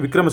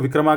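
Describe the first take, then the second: First: The word ends on the consonant without extra vowel. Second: The word ends with an added final 'a' vowel. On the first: It is the Hindi pronunciation. The speaker calls it right. "हिंदी में बात करते हैं ना" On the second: It is the anglicized pronunciation. The speaker calls it wrong. "ए आगे ए लगा देंगे, उसको विक्रमा कर देंगे"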